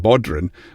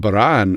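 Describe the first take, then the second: First: It is said with an American pronunciation. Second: It is said with a Scottish pronunciation. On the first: This is how outsiders name the instrument. The speaker calls it wrong. "as the Americans say" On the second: This is how locals name the instrument. The speaker calls it right. "what we call as a"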